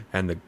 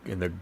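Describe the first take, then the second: No difference in how they are said.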